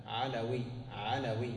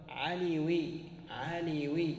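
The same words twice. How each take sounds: First: علوي with short a after the l: "ʿalawī"; fatha on the l. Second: عليوي higher, with long ī after the l: "ʿalīwī"; wrong form with ya. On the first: Teacher giving students the correct nisba, علوي said "ʿalawī". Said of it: "عند النسبة تفتح هذه". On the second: Teacher warning against the wrong form, عليوي said "ʿalīwī". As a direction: say عليوي as ʿa-lī-wī, pitched up. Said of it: "ولا تقل". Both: Shown as a demonstration.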